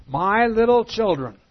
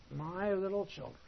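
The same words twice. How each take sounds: First: Put-on "My little children" called out loud, higher, with stress on "little"; emphatic vocative. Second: Said in the usual way. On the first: Shown as a demonstration. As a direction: call out "My little children" like an address to a crowd. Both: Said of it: "Here's the vocative again".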